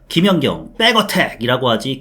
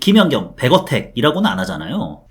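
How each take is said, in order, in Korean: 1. 첫 자음은 된소리, 겹쳐진 pp 소리입니다. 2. 첫 자음은 예사소리, 부드러운 b 소리입니다. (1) "우리가 부를 때는 백백백이라고 하는데" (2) "표기는 백이라고 하지만"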